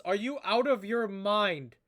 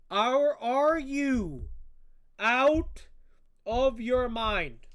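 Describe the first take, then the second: First: Said in the usual way. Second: Are, are you out of your mind drawn out slowly, every word leaned on and louder; slow emphatic disbelief. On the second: Real, not acted. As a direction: spell out each word in disbelief.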